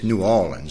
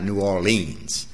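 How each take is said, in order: First: The word is said without an r sound. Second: The word is said with an r sound. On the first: This is how locals say it. The speaker calls it right. "We don't have any R's at all in our vocabulary. It's New Orleans" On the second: This is how outsiders say it. The speaker calls it wrong. "It's not New Orleans"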